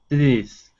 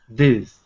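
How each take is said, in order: The two takes are said the same way.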